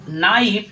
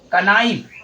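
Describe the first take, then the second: First: The k sound is silent; it starts with n. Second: The k sound is pronounced before the n. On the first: The speaker calls it right. "के आपका silent हो जा रहा है।" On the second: The speaker calls it wrong. "ये आपका बिल्कुल ही गलत"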